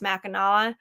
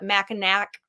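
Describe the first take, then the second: First: The name ends with an open aw sound. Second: The name ends with a hard k sound. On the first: Locals say it this way. The speaker calls it right. "but it's Mackinaw" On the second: Outsiders say it this way. The speaker calls it wrong. "people call it Mackinac Island"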